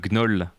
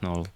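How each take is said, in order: First: It is said with a French pronunciation. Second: It is said as English null, no first sound. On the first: "I say it uh, Gnoll in French" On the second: "It's just null in English, without uh, the first letter"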